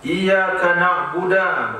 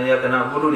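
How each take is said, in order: First: The final consonant is followed by an 'a' vowel. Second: The final consonant is followed by a 'u' vowel. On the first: The speaker calls it wrong. "manfaatkan dal pada na'budu" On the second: The speaker calls it right. "bukan iyyaka na'budu dia baca"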